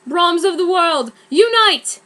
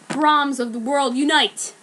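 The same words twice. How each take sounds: First: Higher and louder, rising call; rallying cry. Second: Said in the usual way. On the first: Acted. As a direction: proclaim the spell. Harry's rallying spell.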